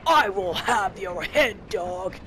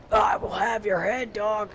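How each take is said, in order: First: Slower, mock-menacing redneck villain, lightly voiced; redneck bad guy threat. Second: Shouted cheesy bandit threat. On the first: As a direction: drag out a cheesy villain threat, not shouted. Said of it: "basic redneck bad guy voice". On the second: Retold or imitated. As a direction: yell the villain line like a generic bandit. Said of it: "he turns into a generic bandit".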